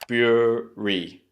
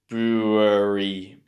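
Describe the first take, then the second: First: The word is said in two syllables. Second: The word is said in three syllables. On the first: The speaker calls it right. "you need to remember there's two sounds" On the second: The speaker calls it wrong. "It's tempting here to kind of break this into three syllables"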